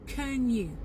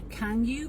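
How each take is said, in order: First: "can you" as "k'n you"; weak form. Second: "can you" with full open A; strong form. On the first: Teacher shows the reduced version, weak can you. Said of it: "sous forme de forme faible". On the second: Teacher shows what to avoid, full can you. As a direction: say can you slowly, both words full. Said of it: "C'est pas can you". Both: Shown as a demonstration.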